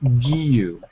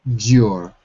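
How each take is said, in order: First: A clear 'you' sound follows the hard g. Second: The 'you' sound is glided over quickly. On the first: "So now you put it together" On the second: "If you say it quickly, you don't hear the Giu. It becomes kind of you slide over it"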